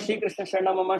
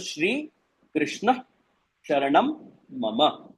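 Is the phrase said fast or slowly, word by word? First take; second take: fast; slow. First: The phrase is said quickly, words running together. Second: The phrase is said slowly, weighting each word. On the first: "फटाफट फटाफट बोलने में" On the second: "एक एक पे भार देके"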